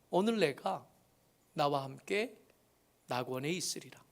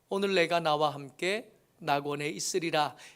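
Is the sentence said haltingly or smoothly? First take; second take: haltingly; smoothly. First: It is broken by pauses, in a faint voice. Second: It is read in one smooth, unbroken flow. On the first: "띄엄띄엄일 수밖에 없고 겨우 내놓는 작은 소리일 수밖에 없는" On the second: "이 말을 저는 이렇게 쭉 읽었지만"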